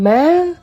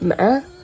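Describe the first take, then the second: First: Said with the tone that means mom. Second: Said with the tone that means horse. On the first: The word means mom. "ma means mom" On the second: The word means horse. "ma means horse"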